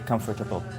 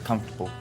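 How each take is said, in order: First: The middle syllable is fully pronounced. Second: The middle syllable is dropped.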